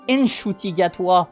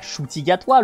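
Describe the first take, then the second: First: The name begins with an audible N sound. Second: The name begins directly with an sh sound. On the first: The speaker calls it right. "le N il se prononce, il existe" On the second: The speaker calls it wrong. "pas Shuti Gatwa"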